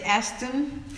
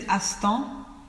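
First: The name is said as English speakers say it. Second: The name is said the usual way. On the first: "people from America, England, they will say Aston" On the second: "is usually said Astan"

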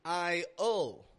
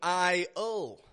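No difference in how they are said.

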